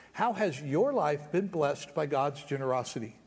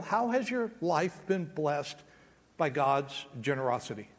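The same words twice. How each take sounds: First: Said in the usual way. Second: Slow, soft. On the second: Shown as a demonstration. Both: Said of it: "repeated question".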